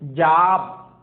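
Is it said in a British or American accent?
American. American accent with a flat unrounded vowel.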